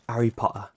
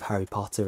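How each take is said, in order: First: The H and T sounds are dropped. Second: The H and T sounds are fully pronounced. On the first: "you miss out T's and H's a lot" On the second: "instead of Harry Potter"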